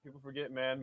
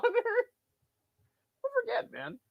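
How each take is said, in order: First: Said in the usual way. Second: Much higher, very slow stretched-out voice; mock high drawn-out repeat. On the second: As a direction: stretch People forget into a squeaky mocking echo. Repeats line then parodies it.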